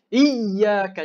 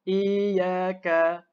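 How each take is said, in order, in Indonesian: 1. Huruf ya bersabdu ditinggikan kuat dan keras. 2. Huruf ya bersabdu sama sekali tidak ditinggikan. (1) "Jangan tinggikan sangat" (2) "kalau kita tak tinggikan"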